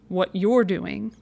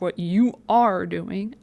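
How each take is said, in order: First: You are is contracted into one syllable. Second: You are is said as two full words. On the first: It sounds like what people normally say. The speaker calls it right. "I would say what you're doing" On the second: It sounds stiff and unlike normal speech. The speaker calls it wrong. "Even I don't say drop what you are doing"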